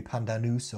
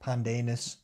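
First: "pandanus" with an oo in the last syllable; alternative pronunciation. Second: "pandanus" with a long "day" in the middle; slight Australian twang. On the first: Co-host guessing at a strange fruit name, "pandanus" as pan-da-noos. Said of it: "Could be pandanus or". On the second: Co-host trying another guess, "pandanus" as pan-day-nus. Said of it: "put a slight Australian twang on it". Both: Shown as a demonstration.

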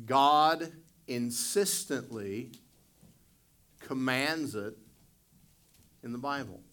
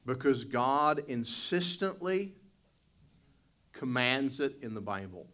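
First: God insistently said very slowly and louder, each word weighted; emphatic repeat. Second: Said in the usual way. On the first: Shown as a demonstration. Pastor repeating the key point to congregation, slow and emphatic. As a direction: drag out "God insistently" to hammer it home. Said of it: "repeated for emphasis". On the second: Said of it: "repeat for emphasis".

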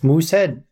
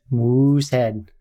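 First: Canadian accent. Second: Slow Canadian accent. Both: Shown as a demonstration. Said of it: "why can't I do a Canadian accent".

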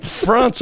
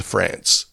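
First: "France" with a long ah; long English A in "France"; broad-A France. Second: "France" with a short flat a. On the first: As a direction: say "France" with the vowel of "father". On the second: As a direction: say "France" with the vowel of "cat". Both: Shown as a demonstration. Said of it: "as opposed to France".

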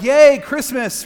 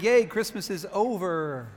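First: Loud, high, drawn-out yay; excited cheer. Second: Slow, drawn-out mock yay; half-hearted cheer. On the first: Acted. Imitating people thrilled about Christmas, excited cheer. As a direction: cheer it with full festive glee. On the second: Imitating people glad Christmas is over, half-hearted cheer. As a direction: cheer without the enthusiasm, dragging it out.

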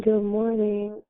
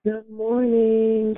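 First: Said in the usual way. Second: Slow, higher stretched good morning; drawn-out greeting. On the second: Real, not acted. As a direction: stretch it out slowly. Host greets caller.

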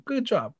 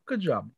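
First: Dry mock praise with a falling end; sarcastic praise. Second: Lower, softer second Good job; muttered repeat. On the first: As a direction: say Good job flatly as if unimpressed. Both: Shown as a demonstration.

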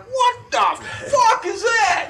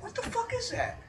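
First: High, loud, drawn-out outburst; startled mock yell. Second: Soft, high-pitched puzzled mutter; hushed bewilderment. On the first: Man woken by a noise in the night, startled shout. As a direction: re-enact being jolted awake, yelling. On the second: Retold or imitated. Looking around the house at night, hushed and baffled. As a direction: ask it under your breath, baffled.

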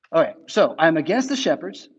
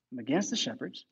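First: Said in the usual way. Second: A much softer repeat; soft echo. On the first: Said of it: "statement, then repeated". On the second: Real, not acted. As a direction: drop the voice for the echo. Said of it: "repeated much softer".

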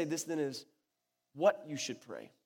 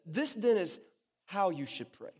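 First: Pause, then lean on "what"; deliberate emphasis on WHAT; stress on WHAT. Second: Pause, then lean on "how"; deliberate emphasis on HOW; stress on HOW. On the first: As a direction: set WHAT apart after a pause. Contrasting what with how to pray. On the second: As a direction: set HOW apart after a pause. Contrasting how with what to pray. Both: Shown as a demonstration.

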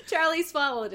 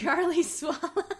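First: Said in the usual way. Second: High, slow, dissolving into real laughs; helpless giggles swallowing the words; breaking into laughter. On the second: Real, not acted. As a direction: lose it laughing mid-line. Reader cracks up at the line.

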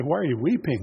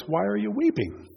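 First: Plain, even question; angels asking. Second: Jesus asking. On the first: Angels ask the weeping Mary, plainly. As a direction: ask it simply, like a passing angel. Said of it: "And they say". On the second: Risen Lord asks weeping Mary why, higher voice. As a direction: question lifted noticeably higher. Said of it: "And he says". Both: Retold or imitated.

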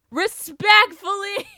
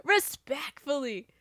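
First: Sarcastic politeness. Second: Softer respectfully. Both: Shown as a demonstration.

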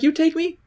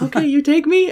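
First: High mock Russian woman asking; Russian accent. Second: High, louder mock Russian woman; Russian accent. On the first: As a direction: mimic her Russian accent, pitched up. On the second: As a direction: pitch it up in her Russian accent. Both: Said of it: "She's like".

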